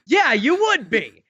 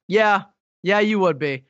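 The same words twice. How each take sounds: First: Drawn-out, higher mock agreement. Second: Mild, matter-of-fact confirmation; retold deadpan agreement. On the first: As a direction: stretch it out, imitating a friend's tone. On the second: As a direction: lightly imitate a friend agreeing. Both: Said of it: "it was exactly in that tone".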